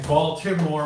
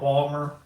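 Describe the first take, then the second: First: All three syllables are pronounced in standard accent. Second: The middle syllable is dropped in local accent. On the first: "Instead of saying Baltimore" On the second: "we just call it Balmer"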